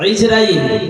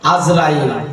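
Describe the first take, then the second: First: The name begins with an 'i' sound. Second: The name begins with an 'a' sound. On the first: This is how it is said in Arabic. The speaker calls it right. "কথাটা আসলে আরবিতে ইজরাইল হবে" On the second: This is the Bengali way of saying it. The speaker calls it wrong. "অনেকে বলে আজরাইল"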